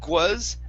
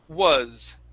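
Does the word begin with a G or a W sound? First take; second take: G; W. First: The word begins with a G sound. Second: The word begins with an oo sound. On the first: The speaker calls it wrong. "adding a G at the beginning of the word" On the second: The speaker calls it right. "start off with an oo"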